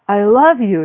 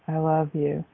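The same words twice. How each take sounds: First: The voice moves up and down throughout. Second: The voice stays flat and even throughout. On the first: Switching things up keeps it fresh. The speaker calls it right. "with different levels of voice" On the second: The same thing said over and over gets tiresome. The speaker calls it wrong. "In that tone, in that way, for 5 years, you might shoot yourself"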